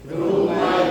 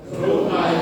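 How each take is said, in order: Both takes have the same delivery.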